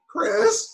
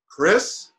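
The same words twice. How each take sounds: First: It is said in a normal, higher voice. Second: It is said in a deep, low voice.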